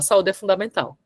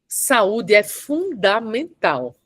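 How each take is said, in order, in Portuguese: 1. 'Fundamental' é dito de forma suave, sem separar as sílabas. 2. 'Fundamental' é dito em sílabas separadas, marcadas com força. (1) "Não tem tanta força quando eu falo assim" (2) "eu pontuei o fundamental"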